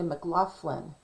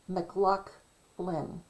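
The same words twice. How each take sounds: First: The middle of the name has an F sound. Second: The middle of the name has no F sound. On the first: "They'll say McLaughlin with an uh, like an F in there" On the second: "it's Scottish. So you say McLaughlin"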